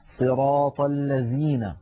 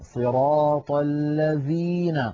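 First: The second word has a z sound. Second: The second word has a clear dh sound. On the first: The speaker calls it wrong. "بحرف الزاي" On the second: The speaker calls it right. "لا بد من الضغط عليها والبيان إخراجها كاملة"

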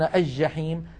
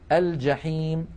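First: The L is assimilated into a doubled J. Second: The L is pronounced clearly before the J. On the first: The speaker calls it wrong. "ويقولون الجحيم. هذا لا يصح" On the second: The speaker calls it right. "لكن الفصحى أن نقول"

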